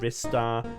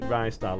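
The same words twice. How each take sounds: First: The first syllable is not said like 'Ricicles'. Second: The first syllable is said like 'Ricicles'. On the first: This is how other people might say it. "You might pronounce it Ristar" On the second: This is how the speaker says it. "I pronounce it Ristar, like Ricicles"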